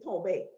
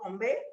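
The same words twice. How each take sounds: First: No m sound comes before the b. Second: An m sound comes before the b. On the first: This is how it is said elsewhere. "other people say tombe" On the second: This is how it is said locally. "we say tombe ... we put an M before the B"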